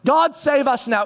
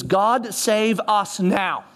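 First: God save us now, higher and slower; emphatic God save us now; fervent plea. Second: Said in the usual way. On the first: Shown as a demonstration. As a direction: plead it, leaning on God. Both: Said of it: "Hosanna literally means".

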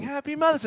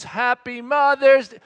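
First: Put-on higher, half-hearted child voice; lightly voiced child's singsong; Hadley. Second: Slow, loud sing-out; sung, lead the kids in a drawn-out greeting; sung, mock-hearty dad leading the song. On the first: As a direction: imitate a kid singing along without gusto. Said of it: "there's Hadley, my oldest, going". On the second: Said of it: "you hear Dad's voice".

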